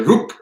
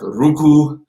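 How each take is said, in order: First: It is clipped short to one quick syllable. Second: It is said in full with two syllables. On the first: "we just say ruk. We say it quick" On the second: "Instead of saying like ruku"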